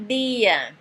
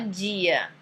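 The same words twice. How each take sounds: First: The d is said the Italian way. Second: The d is said the usual Brazilian way. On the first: "Em italiano tem que falar" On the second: "a maioria fala"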